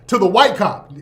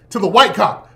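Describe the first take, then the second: No difference in how they are said.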